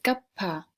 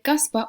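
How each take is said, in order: First: A breathy h sound comes before the p. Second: A clear s sound comes before the p. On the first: "es capa, que poco de H" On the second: "En vez de caspa"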